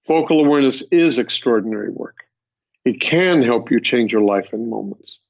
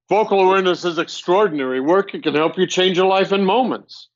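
First: It is said in a grounded, sincere tone. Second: It is said in a boastful, arrogant tone. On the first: The speaker is stating a personal truth. The speaker calls it right. "That's not arrogant. That's my truth" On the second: The speaker is bragging. The speaker calls it wrong. "Now that's stupid and arrogant"

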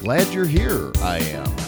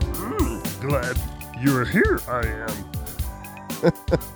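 First: It is said in his natural voice. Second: It is said in a Yoda impression.

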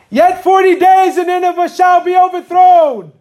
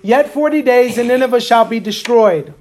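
First: It is said in a put-on preacher voice. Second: It is said in his plain speaking voice.

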